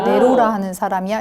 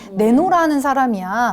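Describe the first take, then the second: First: The second syllable starts with an R sound. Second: The second syllable starts with an N sound. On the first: The speaker calls it right. "그건 네로라가 맞아요" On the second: The speaker calls it wrong. "네노라 하는 사람이야 뭐 이런 식으로"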